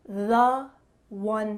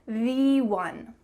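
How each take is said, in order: First: The word 'the' is pronounced 'thuh'. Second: The word 'the' is pronounced 'thee'. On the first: The speaker calls it right. "we're going to treat it as if it were a consonant" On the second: The speaker calls it wrong. "So you should say the one. Nope"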